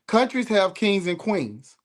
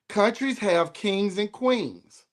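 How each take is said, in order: First: It is spoken at a normal pace. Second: It is spoken at a slower pace.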